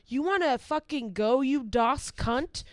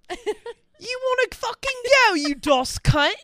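First: It is read in the speaker's ordinary accent. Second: It is spoken in a put-on British accent.

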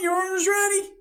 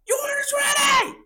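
First: It is called out a little louder. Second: It is shouted at full volume. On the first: "I just go a little bit louder this time" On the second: "I'm just going to let it rip"

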